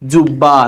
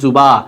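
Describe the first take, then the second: First: The middle b sound is held long, doubled. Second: The middle b sound is short, single. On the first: The speaker calls it right. "বফল এটা কি হবে উচ্চারিত হবে যেমন দেখো জুব্বা" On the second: The speaker calls it wrong. "Not জুবা"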